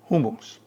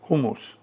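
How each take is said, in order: First: The word is said with a Turkish pronunciation. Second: The word is said with a Turkish pronunciation.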